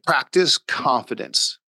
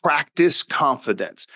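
First: "Practice confidence." said slowly, each word weighted; slow emphasis. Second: "Practice confidence." repeated slowly, a touch higher, weighted; slow emphasis. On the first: Father stressing his motto to the listener, slow and deliberate. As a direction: spell it out slowly so it sticks. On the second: Father repeating his two-word motto, slow and emphatic. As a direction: lean on both words again, slow. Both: Shown as a demonstration. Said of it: "Those two words".

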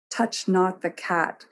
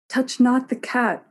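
First: Slow, measured warning; understated defiance, each word slow; defiant. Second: Higher-pitched cry, echoing mother; a child's defiant echo, pitched up. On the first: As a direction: lay down the command defiantly. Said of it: "Sybil stared defiantly". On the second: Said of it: "cried Tess, echoing her mother". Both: A narrator's reading.

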